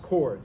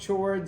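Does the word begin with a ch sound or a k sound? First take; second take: k sound; ch sound. First: It begins with a k sound. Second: It begins with a ch sound. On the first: This is how the word is really pronounced. "It's pronounced chords" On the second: This follows the spelling to help remember it. "But it's it's spelled chords"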